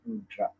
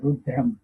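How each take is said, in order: First: The word ends on a vowel, with no m. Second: The word ends with a final m sound. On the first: The speaker calls it wrong. "In English, they we pronounce it Rudra" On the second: The speaker calls it right. "but actually it's Rudram"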